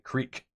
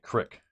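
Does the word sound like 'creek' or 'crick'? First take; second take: creek; crick. First: The word is said with a long 'ee' vowel. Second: The word is said with a short 'i' vowel. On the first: This is how outsiders say it. "You call it a creek" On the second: This is how the local speakers say it. "we call it a crick"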